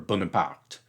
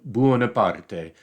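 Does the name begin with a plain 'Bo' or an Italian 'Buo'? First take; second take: plain Bo; Italian Buo. First: The name begins with a plain 'Bo' sound. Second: The name begins with an Italian 'Buo' sound. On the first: "they would often not call him Bonaparte" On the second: "but Buonaparte, uh, kind of"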